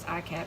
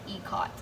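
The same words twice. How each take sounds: First: It is said the way she used to. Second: It is said the way she looked up. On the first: This is how she assumed it was said. The speaker calls it wrong. "I always thought it was" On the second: This is how it is actually said. The speaker calls it right. "you pronounce it ikat"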